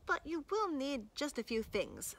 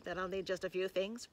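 First: Higher, sly singsong; coy caveat. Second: Low, weary resignation; hopeless sigh. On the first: Acted. Boy warning the hungry wolf, high and coy. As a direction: dangle the catch lightly. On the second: A narrator's reading. Wolf expecting another long list, hopelessly sighing. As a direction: give in with a sinking voice. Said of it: "sighed hopelessly".

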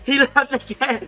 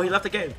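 First: High, slow, laughing cheer; gleeful. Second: Said in the usual way. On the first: Real, not acted. Player delighted his rival left the game, gleeful. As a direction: repeat it high through a laugh.

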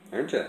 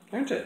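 First: Said in the usual way. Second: High teasing. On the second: Real, not acted. Teasing cat.

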